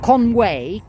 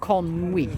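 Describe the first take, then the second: First: The name is said the English way. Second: The name is said the Welsh way. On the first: The speaker calls it wrong. "Not Conway" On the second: The speaker calls it right. "How do you pronounce it in Welsh?"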